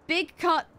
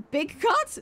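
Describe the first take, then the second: First: "big cut" stated high with a falling end; confident statement. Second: "big cut" jumping very high into a question; puzzled self-query. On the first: Player naming the Splatoon band, "big cut" stated with a fall. Misnames the band, then queries it. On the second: Player doubting the name just said, "big cut" as high rising question. Questions own slip before correcting it. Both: Real, not acted.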